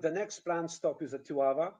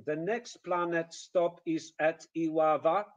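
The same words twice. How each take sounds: First: "The next planned stop is at Iława" with weak "is at"; flowing "The next planned stop is at Iława"; natural English rhythm. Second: "the next planet stop is at Iława" with every syllable equally weighted; stilted, evenly stressed "the next planet stop is at Iława"; machine-gun Polish rhythm. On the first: Shown as a demonstration. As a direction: link "stop is at" smoothly. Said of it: "instead of". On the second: Retold or imitated. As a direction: add a full syllable in "planet", beat out each word. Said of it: "this is exactly the rhythm".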